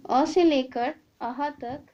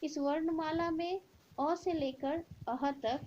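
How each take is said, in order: First: Loud and slow, each word spaced; slow emphatic recap. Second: Said in the usual way. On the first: Shown as a demonstration. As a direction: drive home अ से लेकर अह तक, loud and slow. (ज़ोर देकर धीरे-धीरे)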